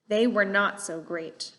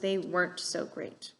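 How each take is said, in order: First: The word not is said in full. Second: The word not is contracted onto were. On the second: "these contractions"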